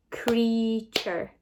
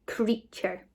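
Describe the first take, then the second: First: CREATURE drawn out as crea, ture; counting syllables. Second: Said in the usual way. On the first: Shown as a demonstration. Teacher clapping syllables with pupils, CREATURE in two beats. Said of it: "Let's count the syllables". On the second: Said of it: "next word we are going to spell".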